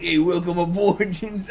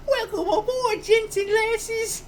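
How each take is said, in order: First: Lightly voiced British old man; a hint of an old British gent. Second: Put-on very high, squeaky British baby. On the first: Showing the only way he can do it, old man. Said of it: "like, an old man". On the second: Failing to do it as a baby, squeaky British. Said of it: "I can't do it as a baby".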